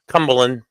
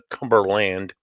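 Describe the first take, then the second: First: Some consonants are dropped in a relaxed pronunciation. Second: Every consonant is pronounced fully and carefully. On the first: This is how locals say it. The speaker calls it right. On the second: Nobody in New England says it this way. The speaker calls it wrong.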